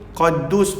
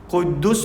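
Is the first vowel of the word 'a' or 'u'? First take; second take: a; u. First: The first vowel is an open 'a' sound. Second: The first vowel is a rounded 'u' sound. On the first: The speaker calls it wrong. "boleh dibaca dengan baris atas fathah" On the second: The speaker calls it right. "boleh dibaca dengan berbaris depan dhammah"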